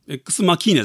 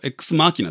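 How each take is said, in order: First: The stress is on the second syllable. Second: The stress is on the first syllable. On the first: The speaker calls it wrong. "X マキーナじゃないよ。" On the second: The speaker calls it right. "X マーキーナだよ。"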